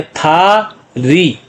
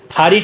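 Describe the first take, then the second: First: "था री" very slow, both vowels stretched; syllable by syllable. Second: Said in the usual way. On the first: Shown as a demonstration. Teacher showing what the letters make, "था री" slowly separated. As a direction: hold "था", pause, then long "री". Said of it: "तो क्या बन गया". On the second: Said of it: "टांग को कहते हैं".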